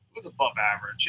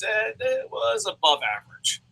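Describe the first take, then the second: First: Deadpan repeat. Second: Said in the usual way. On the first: Shown as a demonstration.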